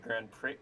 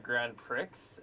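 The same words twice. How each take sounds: First: Prix ends in a vowel, x silent. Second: Prix ends with a clear ks sound. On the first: The speaker calls it right. "instead of the Grand Prix" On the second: The speaker calls it wrong. "I call the Grand Prix"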